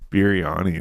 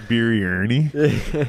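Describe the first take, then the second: First: The word is said with one R sound. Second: The word is said with several R sounds. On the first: The speaker calls it right. "there's one R in it" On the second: The speaker calls it wrong. "I thought there was a bunch of R's in there"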